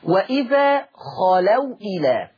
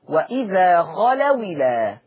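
First: The glottal stop before 'ila' is clearly pronounced. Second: The glottal stop drops and its vowel joins 'w'.

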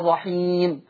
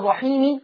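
First: The word ends on a bare, unvoweled m. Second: The final m is followed by a short i vowel. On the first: The speaker calls it right. "بقف بسكون الميم" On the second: The speaker calls it wrong. "هل أنا بقف أقول الرحيمي ولا الرحيم؟"

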